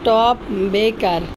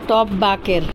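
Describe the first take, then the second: First: The word 'baker' is said with an 'ay' vowel. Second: The word 'baker' is said with an 'a' vowel. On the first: The speaker calls it right. "উচ্চারণ হচ্ছে top বেকার" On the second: The speaker calls it wrong. "বার্গার বান দেখে বলে top বাকের"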